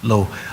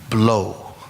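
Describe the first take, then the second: First: The word starts directly with an L sound. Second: The word starts with a clear B sound. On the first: The speaker calls it right. "but the B is silent" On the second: The speaker calls it wrong. "you might say it should be blow, B L O. No"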